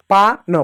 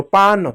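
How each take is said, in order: First: पा न split as "paa, no"; पा न in two separate syllables; sounded out separately. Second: पान as one word, "paan"; पान run together with a long aa; blended together. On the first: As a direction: leave a gap between पा and न. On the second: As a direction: join पान without a gap. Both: Shown as a demonstration. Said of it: "एक साथ बोलो".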